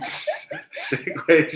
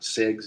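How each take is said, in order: First: The word sounds like 'segways', two syllables. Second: The word sounds like 'segs', one syllable. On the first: The speaker calls it right. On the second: The speaker calls it wrong.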